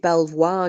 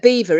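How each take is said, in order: First: It is said as spelled, like bel-vwar. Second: It is said like the word beaver. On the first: The speaker calls it wrong. "you don't pronounce it Belvoir, do you?" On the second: The speaker calls it right. "Is it Beaver Beaver, isn't it?"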